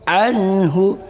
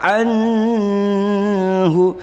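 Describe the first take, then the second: First: The n sound is kept short. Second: The n sound is held long. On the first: The speaker calls it right. "tapi cukup anhu" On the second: The speaker calls it wrong. "Jangan baca anhu"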